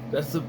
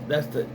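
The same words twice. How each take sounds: The two takes are said the same way.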